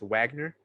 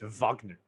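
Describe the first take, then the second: First: The name is said with an American pronunciation. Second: The name is said with a German pronunciation. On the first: "in America it's Wagner" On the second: "in Germany it's Wagner"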